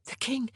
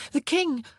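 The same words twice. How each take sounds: First: Nervous warning. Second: Higher, louder alarmed cry of The king; urgent warning. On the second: Women warning the queen the king comes, louder alarm. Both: A narrator's reading.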